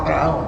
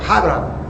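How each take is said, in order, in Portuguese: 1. O nome começa com uma vogal simples. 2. O nome começa com um som gutural da garganta. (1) "Falar Abraão" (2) "mas é Abraão"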